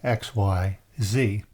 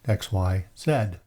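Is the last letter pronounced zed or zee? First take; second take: zee; zed. First: The last letter is said as zee. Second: The last letter is said as zed, Canadian-style.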